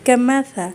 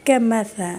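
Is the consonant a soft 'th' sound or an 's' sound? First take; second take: th; th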